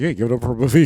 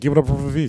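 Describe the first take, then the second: First: It is said in an angry tone. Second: It is said in a calm tone.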